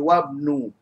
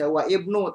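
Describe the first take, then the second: First: The vowel is dropped, linking into one word. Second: The vowel starting ibnu is pronounced separately. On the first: The speaker calls it right. "tapi jadi wabnu" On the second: The speaker calls it wrong. "tidak boleh dibaca wa ibnu"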